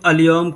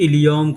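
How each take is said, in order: First: The word begins with an "a" vowel. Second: The word begins with an "i" vowel. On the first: "बहुत से लोग अलियौम कहते हैं" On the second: "बहुत से लोग इलियौम कहते हैं"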